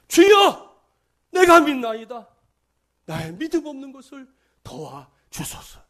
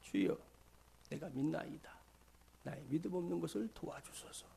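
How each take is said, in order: First: It is shouted as a desperate cry. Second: It is said calmly, like reading aloud. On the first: The speaker calls it right. "소리를 질렀답니다" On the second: The speaker calls it wrong. "그랬을까요? 아니에요. 절대로 그러지 않았습니다"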